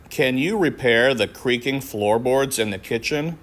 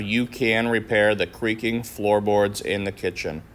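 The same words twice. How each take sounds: First: Questioning tune lifting on you; a question asked. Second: Statement tune falling at the end; calm statement. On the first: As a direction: ask it like a request with a rise. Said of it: "a question that we need to make into a statement". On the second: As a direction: state it evenly, fall at the end. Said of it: "we need to make into a statement". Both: Shown as a demonstration.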